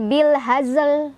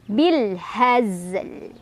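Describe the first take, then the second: First: The final z is released with a bounce. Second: The final z is said plainly without bounce. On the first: The speaker calls it wrong. "Jangan mantul" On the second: The speaker calls it right. "Tapi bil hazl"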